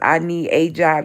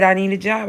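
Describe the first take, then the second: First: It is said slowly. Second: It is said fast.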